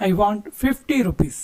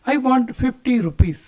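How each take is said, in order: First: Slow repeat. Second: Very slow, every word laid out clearly; slow model sentence. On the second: Teacher modelling the English for Kannada students, slowly. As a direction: spell it out slowly for learners. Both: Shown as a demonstration. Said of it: "ಬೇಕು ಅಂತ ಕೇಳೋದಕ್ಕೆ".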